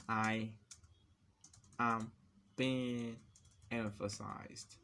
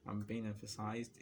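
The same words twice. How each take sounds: First: One word at a time, long pauses; halting, word-by-word delivery; typing-pace dictation. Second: Said in the usual way. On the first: Real, not acted. Typing emphasized example text, word-by-word dictation.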